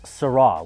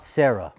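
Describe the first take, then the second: First: It sounds like the French word sera. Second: It sounds like the English name Sarah. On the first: The speaker calls it right. "It's Syrah, which is the future tense of the French word être" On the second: The speaker calls it wrong. "It's not Sarah, which is what I hear most people saying"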